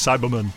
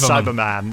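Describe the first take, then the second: First: The last syllable is reduced to 'mun'. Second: The last syllable has a full 'man' vowel. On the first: "He says Cyberman" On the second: "He never says Cyberman"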